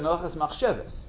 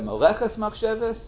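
First: The second word carries the emphasis. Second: The first word carries the emphasis. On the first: The intention is the main thing. "where do you put the emphasis?" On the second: The act itself is the main thing. "where do you put the emphasis?"

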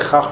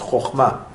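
First: The first vowel is a. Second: The first vowel is o. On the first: The speaker calls it wrong. "There's no such word as chachma in Hebrew" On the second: The speaker calls it right. "It's chochma"

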